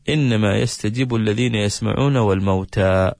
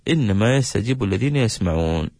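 First: The pause comes after the word wal-mawta. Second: The pause comes after the word yasma'un. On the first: The dead are also among those who hear. The speaker calls it wrong. "ويقف" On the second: Only those who hear respond; the dead are raised later. The speaker calls it right. "الوقفة هنا يكون على قوله تعالى إنما يستجيب الذين يسمعون"

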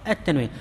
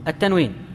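No difference in how they are said.

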